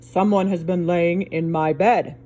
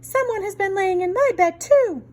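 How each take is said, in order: First: A big, deep Papa Bear voice. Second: A middle-sized Mama Bear voice.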